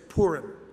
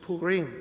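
First: It is said the common American way. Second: It is said the way Jewish speakers say it. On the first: The speaker calls it wrong. "Most Americans say Purim" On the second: The speaker calls it right. "but it's Purim"

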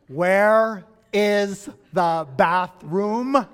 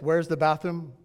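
First: It is said more slowly and loudly. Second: It is said at normal speed and volume.

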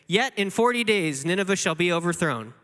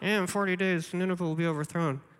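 First: It is said clearly and openly. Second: It is muttered out of the side of the mouth.

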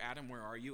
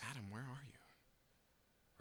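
First: It sounds harsh, like a cop's megaphone. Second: It sounds tender, like a heartbroken father.

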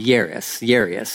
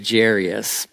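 First: The name begins with a Y sound. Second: The name begins with a J sound. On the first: This is the technically correct way of saying it. The speaker calls it right. "It's pronounced with a Y" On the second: This is the regional Southern way of saying it. The speaker calls it wrong. "so in Texas, we would say Jairus, but that's not technically how you say it"

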